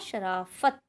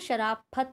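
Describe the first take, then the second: First: The middle consonant is an f sound. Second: The middle consonant is an aspirated p. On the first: The speaker calls it right. "हमने क्या कहा" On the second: The speaker calls it wrong. "शराफत नहीं बोला हमने"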